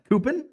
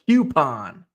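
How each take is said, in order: First: The word begins with a plain 'coo' sound. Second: The word begins with a 'kyoo' sound. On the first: The speaker calls it wrong. "It's not a coupon" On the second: The speaker calls it right. "Q. There's a Q in there"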